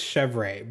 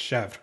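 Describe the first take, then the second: First: Chèvre said as "shev-RAY"; two-syllable pronunciation. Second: Chèvre said as one syllable, "shevr"; French pronunciation. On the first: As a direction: sound out chèvre with a full "ray" ending. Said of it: "I think it's chèvre". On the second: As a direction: cut chèvre short, with no "ray" ending. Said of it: "I learned the French way". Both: Shown as a demonstration.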